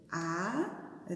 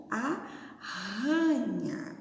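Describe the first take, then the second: First: Aranha drawn out slowly, syllable by syllable; teacher stretching aranha for the class; slow syllable split. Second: Arranha said very slowly with a heavy rr; teacher leaning hard on the rr in arranha; strong rolled r. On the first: Teacher to pupils, aranha spelled out slowly. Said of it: "Por exemplo". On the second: Teacher contrasting aranha with arranha, the rr slow and strong. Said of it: "Aranha e agora a outra". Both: Shown as a demonstration.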